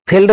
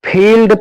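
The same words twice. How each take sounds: First: फील्ड cut short, vowel not held; hurried vowel in फील्ड; wrong short vowel. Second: फील्ड with the ee held longer; long vowel. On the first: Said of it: "फील्ड नहीं पढ़ के". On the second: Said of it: "इसमें थोड़ा लंबा". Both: Shown as a demonstration.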